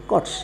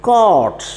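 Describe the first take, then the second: First: കോട്ട് with a brief O; short vowel. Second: കോട്ട് with a long O, high then falling; long vowel. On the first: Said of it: "but C O T". (കോട്ട് ഹ്രസ്വസ്വരത്തിൽ) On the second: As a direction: stretch the O in കോട്ട്. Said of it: "അവിടെ long level sound". (കോട്ട് ദീർഘസ്വരത്തിൽ) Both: Shown as a demonstration.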